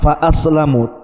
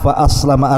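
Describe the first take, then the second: First: The word ends with an 'u' vowel. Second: The word ends with an 'a' vowel. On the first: The companion stays unbelieving but cannot cause harm. "bacaannya ar-raf'u di dhammah" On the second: "membaca dengan fathah"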